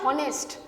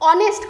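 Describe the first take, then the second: First: The word starts with an audible h sound. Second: The word starts directly with a vowel sound. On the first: The speaker calls it wrong. "কখনো আমরা এটা বলি না হনেস্ট" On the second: The speaker calls it right. "অনেস্ট কথাটা, হনেস্ট নয়"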